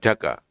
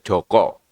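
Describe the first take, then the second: First: The vowels are pronounced as a sounds. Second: The vowels are pronounced as o sounds. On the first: This is the local reading here. "Kalau di sini Jaka ya tetap Jaka" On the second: This is the Central Java reading. "Jaka itu dibaca Joko"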